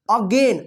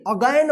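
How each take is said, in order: First: "अगेन" with a long "e" in gen; correct "अगेन". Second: "अगेन" misread as "अगैन", with open ai; wrong "अगेन". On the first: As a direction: say the end of "अगेन" like "gain". ("अगेन" में लंबा ए उच्चारण) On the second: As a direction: widen the second vowel of "अगेन" to "a-e". ("अगेन" को ग़लत ढंग से "अगैन" पढ़ना) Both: Shown as a demonstration. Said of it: "अगेन मत पढ़िएगा".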